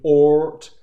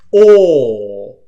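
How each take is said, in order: First: The vowel is cut short, moving straight into T. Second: The vowel is held long before the final T. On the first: The speaker calls it wrong. "if you try to move to the T as you're making the or sound" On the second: The speaker calls it right. "let's put the T at the end of it this time"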